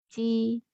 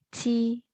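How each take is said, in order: First: The first consonant has no puff of air. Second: The first consonant has a strong puff of air. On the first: "Huruf J dibaca kayak huruf C" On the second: "ada tekanan udaranya"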